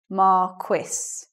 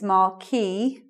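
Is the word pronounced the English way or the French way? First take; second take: English; French. First: The word is pronounced the English way. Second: The word is pronounced the French way. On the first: "the standard pronunciation of that in English is marquis" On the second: "the French pronunciation is marquis"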